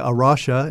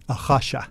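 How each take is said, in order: First: The name is said with an English pronunciation. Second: The name is said with a Portuguese pronunciation. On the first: "We say Arasha in English" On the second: "I will say it in very terrible Portuguese"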